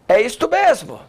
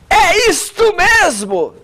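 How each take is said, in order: First: It is spoken softly, in a low voice. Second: It is spoken loudly, in a strong voice.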